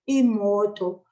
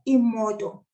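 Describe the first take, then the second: First: The O vowel is drawn out long. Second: The O vowel is kept short. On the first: The speaker calls it right. "I kind of pull the O a little bit" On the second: The speaker calls it wrong. "So not imoto. Imoto then becomes another language"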